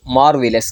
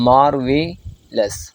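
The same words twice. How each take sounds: First: Said in the usual way. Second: मार्वेलस said slowly, each syllable clear; मार्वेलस stretched out with a falling end; slow syllable demo. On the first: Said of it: "इसमें टू syllables हैं, मार्वेलस". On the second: Shown as a demonstration. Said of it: "इसमें टू syllables हैं".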